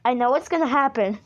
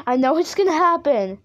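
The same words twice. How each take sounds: First: Said in the usual way. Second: Higher, more insistent worry; rising dread. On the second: Real, not acted. Player foreseeing a scare at the crack, rising dread. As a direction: insist nervously, pitch climbing.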